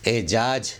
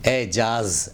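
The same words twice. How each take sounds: First: "اعجاز" as ejaaj, j at the end; mispronounced final j. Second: "اعجاز" as ejaaz, j then z; careful ejaaz for "اعجاز"; correct final z. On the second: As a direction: say "اعجاز" ending in a clear z. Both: Shown as a demonstration. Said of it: "اعجاز نہیں".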